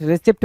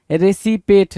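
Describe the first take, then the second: First: Said in the usual way. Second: रेसिपेट in three syllables, re-si-pet; wrong pronunciation. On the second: Shown as a demonstration. Teacher reading the misprinted word, रेसिपेट as re-si-pet. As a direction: say रेसिपेट with "si-pet" replacing "sept". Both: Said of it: "रिसिप्ट बोलते हैं ना".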